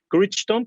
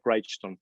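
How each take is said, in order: First: The name is read the way it is spelled. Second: The name is said in its usual pronunciation. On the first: The speaker calls it wrong. "se escribe Crichton" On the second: The speaker calls it right. "pero se pronuncia Crichton"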